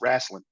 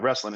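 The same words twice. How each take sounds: First: It is said in a local regional pronunciation. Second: It is said in a standard pronunciation. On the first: "if you're from where I'm from, ... it's wrestling" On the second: "it's not wrestling"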